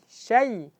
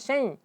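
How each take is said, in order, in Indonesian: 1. Bunyi itu mengalir keluar lewat mulut saja. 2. Bunyi itu melewati hidung, sengau. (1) "jadi alirkan ke ke mulut" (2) "jangan syai"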